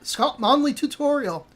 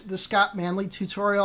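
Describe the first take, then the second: First: It is said in a put-on Scottish accent. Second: It is said in the speaker's ordinary accent.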